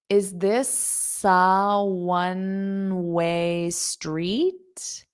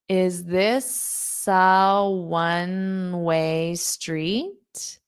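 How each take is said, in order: Both takes have the same delivery.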